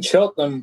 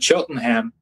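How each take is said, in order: First: It is said in his own British accent. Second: It is said in an imitated American accent.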